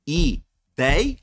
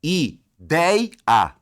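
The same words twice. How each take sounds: First: Ideia said louder and higher, ending on a rise; a short rising Ideia; rising demo. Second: Ideia said louder and higher, its syllables split; pulling Ideia apart to show the syllables. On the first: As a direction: show the word Ideia once more. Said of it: "não é terminada em ditongo aberto". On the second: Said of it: "olha, pessoal, ó". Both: Shown as a demonstration.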